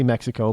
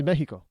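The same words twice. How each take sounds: First: Mexico as "MEK-si-koh"; hard KS in Mexico; American pronunciation. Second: Mexico as "MEH-hee-ko"; Spanish pronunciation. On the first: Admitting how Americans say it, English-style Mexico. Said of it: "I know we say Mexico". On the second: Showing how they say it down there, Spanish-style Mexico. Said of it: "They say Mexico". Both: Shown as a demonstration.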